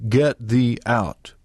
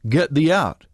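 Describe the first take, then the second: First: "Get thee out" slow, each word weighted; emphatic GET THEE OUT. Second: Said in the usual way. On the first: A narrator's reading. Mama explains what God means, slow weighty "Get thee out". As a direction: space out "Get thee out" firmly. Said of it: "he means, "Get thee out". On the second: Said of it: "when God says".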